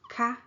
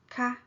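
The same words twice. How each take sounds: First: The word is said with a high tone. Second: The word is said with a high tone.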